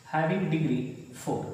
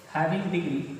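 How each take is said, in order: First: Very slow, words stretched for writing down; drawn-out teacher's dictation. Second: Said in the usual way. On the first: Shown as a demonstration. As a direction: dictate it slowly to the class.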